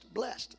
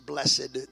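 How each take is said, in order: First: The word is said with one syllable. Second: The word is said with two syllables. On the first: It is the plain everyday pronunciation. The speaker calls it right. "It really is just blessed" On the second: It is the older traditional pronunciation. The speaker calls it wrong. "most people pronounce this blessed. That's the old English pronunciation"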